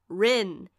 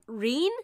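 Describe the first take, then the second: First: The name has a short 'i' vowel. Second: The name has a long 'ee' vowel. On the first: The speaker calls it right. "No, it's, spell it with me now, R I N" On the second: The speaker calls it wrong. "old dubs used to pronounce it Reen"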